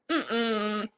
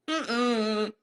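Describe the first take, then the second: No difference in how they are said.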